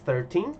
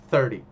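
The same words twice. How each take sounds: First: "thirteen" with a long, stressed second syllable; stress on TEEN. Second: "thirty" punched loud on the first syllable, short "ty"; stress on THIR. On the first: Teacher contrasts it with thirty, stress on final TEEN. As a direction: lean on the end: thir-TEEN. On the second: Teacher contrasts it with thirteen, stress on first syllable THIR. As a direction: hit the start: THIR-ty. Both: Shown as a demonstration. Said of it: "ó a diferença".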